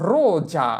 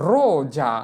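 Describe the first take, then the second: Both takes have the same delivery.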